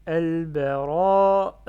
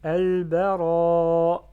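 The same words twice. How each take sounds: First: AL-BARA loud and long, with a stray "uh" released at the end; faulty breathy ending. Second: AL-BARA loud and long, ending without an extra E; clean held ending. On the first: Teacher slips while modelling word, extra E after long vowel. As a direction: chant AL-BARA, letting a puff of E slip out last. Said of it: "le E à la fin, j'ai fait une faute". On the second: Teacher corrects own mistake for learners, long vowel cleanly ended. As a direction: chant AL-BARA slowly, no breath released after it. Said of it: "j'ai fait une faute". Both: Shown as a demonstration.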